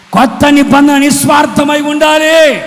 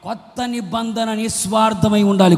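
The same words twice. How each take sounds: First: High, loud, full-force proclamation; shouted preaching. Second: Said in the usual way. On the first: Real, not acted. Preacher rousing the congregation to be selfless, shouted preaching. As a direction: drive it home at the top of your voice. Repeats louder after applause call.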